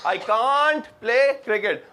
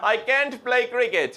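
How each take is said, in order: First: Can't has the long vowel of father. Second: Can't has the short vowel of cat. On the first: "कुछ लोग बोलते हैं कांट" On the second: "कुछ लोग इसको बोलते हैं कैंट"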